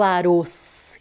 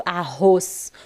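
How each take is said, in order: First: "arroz" dito com R fraco, como "aroz"; R brando errado. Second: "arroz" devagar, com RR aspirado; RR forte. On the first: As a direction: reduza o RR de "arroz" a um toque. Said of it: "Eu não falo arroz". (erre fraco em "arroz") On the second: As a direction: ponha força no RR de "arroz". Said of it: "ele pede para que seja forte". (erre forte em "arroz") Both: Shown as a demonstration.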